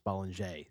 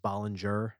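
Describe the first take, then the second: First: The name is said with a French pronunciation. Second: The name is said with an English pronunciation. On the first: The speaker calls it right. "But it's French, so it's Bollinger" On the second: The speaker calls it wrong. "everyone says Bollinger, because that's how it's spelled"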